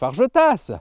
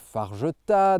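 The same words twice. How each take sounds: First: The final S is pronounced. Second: The final S is silent. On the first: The speaker calls it wrong. "C'est pas des Mas ou des Fargetas" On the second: The speaker calls it right. "on ne les prononce pas"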